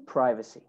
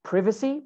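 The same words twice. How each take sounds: First: American "privacy", PRY-va-see; long i in "privacy"; American pronunciation. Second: British "Privacy", PRIV-a-see; short i in "Privacy"; British pronunciation. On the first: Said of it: "In American English". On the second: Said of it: "In British English". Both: Shown as a demonstration.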